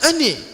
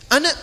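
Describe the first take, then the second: First: The final vowel is pronounced as e. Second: The final vowel is an open a. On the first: "pakai E"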